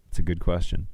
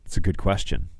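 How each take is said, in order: Both takes have the same delivery.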